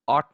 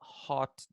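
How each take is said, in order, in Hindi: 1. शब्द सीधे स्वर से शुरू होता है। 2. शब्द 'h' की आवाज़ से शुरू होता है।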